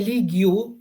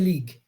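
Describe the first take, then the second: First: The ending is sounded as an extra syllable. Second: The ending is silent, giving one syllable. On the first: The speaker calls it wrong. "You don't say league you" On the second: The speaker calls it right. "you say league"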